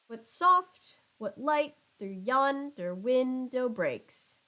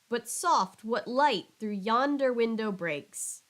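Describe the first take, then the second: First: Stresses fall in a strict, even alternating beat. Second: Stresses fall unevenly, as in natural speech. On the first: "if every line had this exact same rhythm" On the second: "it's more natural to say it like this"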